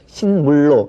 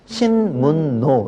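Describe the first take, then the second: First: The linked consonants are both pronounced as L. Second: The linked consonants are both pronounced as N. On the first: The speaker calls it wrong. "신물로 이렇게 발음합니까? 이거는 아무도 그렇게 발음을 하지 않죠" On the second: The speaker calls it right. "리을을 니은으로 바꿨어요"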